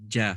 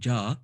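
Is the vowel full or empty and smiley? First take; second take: empty; full. First: The vowel is thin and smiley. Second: The vowel is full with a rounded mouth. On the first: The speaker calls it right. "more empty mouth though... So smile when you say it" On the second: The speaker calls it wrong. "instead of saying ja"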